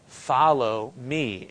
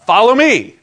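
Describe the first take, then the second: First: Said in the usual way. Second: Loud, high shouted command; emphatic exclamation. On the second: Shown as a demonstration. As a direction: call it out with a big exclamation point. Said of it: "There's an exclamation point".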